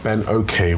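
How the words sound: The surname is said with English pronunciation. This is an acceptable substitute for the original. "English pronunciation, Ben Okay would be the next best way to say it"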